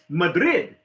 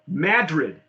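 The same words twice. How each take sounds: First: It is said in the Spanish way. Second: It is said in the local New Mexican way. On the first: This follows how the name is spelled. "that's how it's spelled" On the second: This is how the local people say the name. "That's how they pronounce it"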